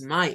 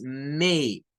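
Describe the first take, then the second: First: "my" said as a plain Spanish mai, the wrong way. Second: "may" said as mei, e gliding to i; English "may". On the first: Teacher showing the wrong reading "my". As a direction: say "my" as the spelling suggests. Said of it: "aquí no decimos my". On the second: Teacher modelling the right vowel in "may". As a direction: glide "may" from e to i. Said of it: "se cambia por el sonido de una E y una I". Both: Shown as a demonstration.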